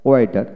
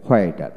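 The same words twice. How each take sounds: First: ওয়েটার with a plain w, no h; British w in ওয়েটার; British pronunciation. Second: হোয়েটার with h before the w; American hw in হোয়েটার; American pronunciation. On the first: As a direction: open ওয়েটার straight on the w. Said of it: "হোয়াইট হলো British". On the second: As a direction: start হোয়েটার on an h. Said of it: "হোয়াইট হলো American". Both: Shown as a demonstration.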